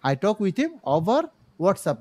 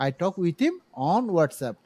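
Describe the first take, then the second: First: Slow wrong example "over WhatsApp"; wrong usage. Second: Slow correct version "on WhatsApp"; correct usage. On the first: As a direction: model the mistake "over WhatsApp" slowly. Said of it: "নয়". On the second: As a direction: say "on WhatsApp" slowly and clearly. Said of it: "on লাগাই দেবেন". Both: Shown as a demonstration.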